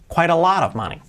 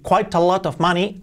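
First: The words run together with linked sounds. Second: Each word is said separately, without linking. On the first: The speaker calls it right. "hoy vamos a limitarnos a el linking, la unión" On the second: The speaker calls it wrong. "Está perfectamente pronunciado, pero nadie dice eso"

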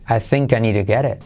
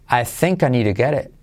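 No difference in how they are said.

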